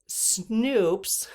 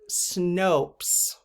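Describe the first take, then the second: First: The vowel is a long 'oo' sound. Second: The vowel is a long 'oh' sound. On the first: The speaker calls it wrong. "I said Snoops so many times and people commented" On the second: The speaker calls it right. "apparently it's Snopes"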